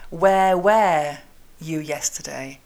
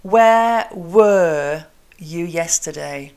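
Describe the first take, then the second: First: "were" said just like "where"; slow "where were", same vowel in both words; learner's mispronunciation. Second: Slow "where were", two different vowels; "were" as "wur", clearly unlike "where"; very slow model of "where were you yesterday"; correct vowel contrast. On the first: Retold or imitated. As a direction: imitate French learners saying "where where you yesterday". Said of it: "French speakers say to me". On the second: Shown as a demonstration. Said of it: "let's say it".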